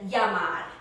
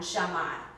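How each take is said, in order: First: The double L sounds like an English Y. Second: The double L sounds like an English SH. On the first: "pronounced like a Y" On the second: "In Argentina, ... like an S H"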